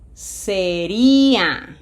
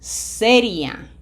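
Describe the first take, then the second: First: The stress falls on the second syllable. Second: The stress falls on the first syllable.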